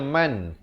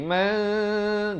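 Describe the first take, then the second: First: The final N is pronounced clearly. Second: The final N is hidden and nasalized. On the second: "Di sini ikhfa"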